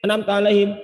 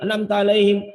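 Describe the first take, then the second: No difference in how they are said.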